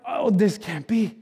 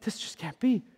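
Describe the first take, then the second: First: Drawn-out, slow, stunned; slow disbelief. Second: Softer, almost to himself; quiet disbelief. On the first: Pastor voicing disbelief, slow and stunned. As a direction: let it sink in slowly, unbelieving. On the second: Pastor echoing disbelief to himself, softly. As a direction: drop away into a murmur of doubt. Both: Pretend.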